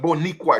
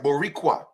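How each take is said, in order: First: The middle consonant is an n sound. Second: The middle consonant is an r sound. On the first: The speaker calls it wrong. "It's not Boniqua" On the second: The speaker calls it right. "It's Boricua"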